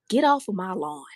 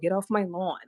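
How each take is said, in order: First: It is said in a Southern country accent. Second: It is said in a New York accent. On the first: The speaker calls it right. "He has to use a country accent behind it" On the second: The speaker calls it wrong. "if you use a New Yorker accent, it doesn't hit the same"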